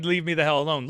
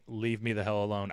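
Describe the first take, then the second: First: Emphatic quote. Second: Said in the usual way. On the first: Retold or imitated. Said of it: "really was his way of saying". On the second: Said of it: "his way of saying".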